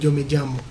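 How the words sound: It is said in a non-Argentine Spanish way. "eles não falam yo me llamo"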